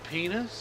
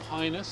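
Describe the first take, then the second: First: The first vowel sounds like 'ee'. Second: The first vowel sounds like 'eye'.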